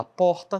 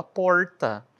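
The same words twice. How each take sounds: First: "porta" com R leve de tepe; R de sotaque regional. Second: "porta" com R retroflexo; R caipira. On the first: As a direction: diga "porta" com R batido na língua. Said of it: "Tem gente que fala porta". ("porta" com R curto) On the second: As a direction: diga "porta" com a língua enrolada no R. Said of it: "tem gente que fala porta". ("porta" com R puxado do interior) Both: Shown as a demonstration.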